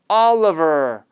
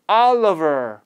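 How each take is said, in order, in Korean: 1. 가운데 모음은 슈와로 약화돼요. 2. 가운데 모음은 슈와로 약화돼요.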